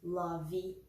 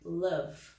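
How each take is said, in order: First: An extra vowel sound is added at the end. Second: The word stops on the final consonant sound. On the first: The speaker calls it wrong. "É bem comum que os brasileiros acabem falando" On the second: The speaker calls it right. "a gente não vai pronunciar esse E. Então, vai ser"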